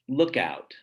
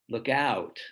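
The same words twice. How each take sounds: First: The stress falls on look. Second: The stress falls on out. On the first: It names a place. "The first one has stress on the first syllable" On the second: It is a warning. "the second one has it on the second syllable"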